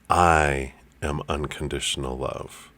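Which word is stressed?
I. The word "I" is stressed.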